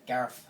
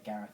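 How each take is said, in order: First: Gareth said as "Garef", th turned to f; mispronounced Gareth. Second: Said in the usual way. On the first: Retold or imitated. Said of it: "they say Gareth". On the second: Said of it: "They don't say Gareth".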